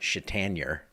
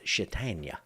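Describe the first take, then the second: First: The name ends with an R sound. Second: The name ends without an R sound. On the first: The speaker calls it wrong. "It's not Chatanier" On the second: The speaker calls it right. "You don't pronounce the R"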